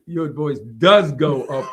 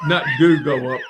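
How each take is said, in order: First: "does" punched louder through a laugh; stress on DOES. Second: "do" singled out as the wrong word; stress on DO. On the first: Real, not acted. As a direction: laughingly correct with a heavy, drawn-out "does". Corrects speaker's "do go up. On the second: Retold or imitated. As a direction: quote the mistaken "do" pointedly. The wrong wording being corrected.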